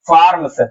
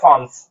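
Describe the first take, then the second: First: The R sound is clearly pronounced. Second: The R sound is left silent. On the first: The speaker is new to English. "कोई नया ल learner होगा वो क्या पढ़ेगा?" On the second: The speaker has spoken English for a long time. "और पुराना क्या पढ़ेगा?"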